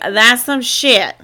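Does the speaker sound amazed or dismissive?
amazed. It is said in an amazed, impressed tone. The story was impressively wild. The speaker calls it right. "It was like"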